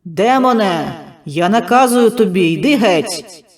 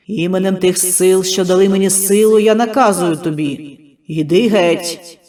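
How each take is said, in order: First: Loud shouting command, ringing; shouted exorcism. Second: Loud, drawn-out exorcism, stress on я; slow shouted command. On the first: Healer shouting at the demon inside Mykhailo, commanding. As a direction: bark the order at the demon. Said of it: "прокричав". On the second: Healer ordering the demon out, loud and slow. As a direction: hammer each word slowly at the demon. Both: Acted.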